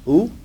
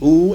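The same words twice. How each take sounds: First: The vowel is cut short. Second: The vowel is held long. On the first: "or it may be short" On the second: "That vowel sound in Arabic may be long"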